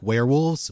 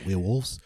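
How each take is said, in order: First: It is said in the speaker's ordinary accent. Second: It is said in a New Zealand accent. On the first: "just like werewolves" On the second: "if you were trying to do like a New Zealand accent"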